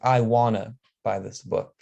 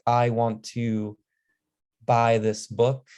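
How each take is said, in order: First: 'Want to' is blended into one word, 'wanna'. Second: Both words of 'want to' are said separately. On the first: "you say like I wanna buy this book" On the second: "instead of saying want to"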